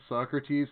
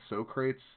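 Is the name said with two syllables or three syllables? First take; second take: three syllables; two syllables. First: The name is said with three syllables. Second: The name is said as two syllables, 'So-crates'. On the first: The speaker calls it right. "I mispronounced Socrates" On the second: The speaker calls it wrong. "said Socrates"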